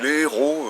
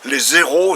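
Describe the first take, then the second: First: No z sound links les to the noun. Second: A z sound links les to the noun. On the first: It means heroes. The speaker calls it right. "C'est les héros" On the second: It sounds like the word for zeros. The speaker calls it wrong. "c'est pas les zéros"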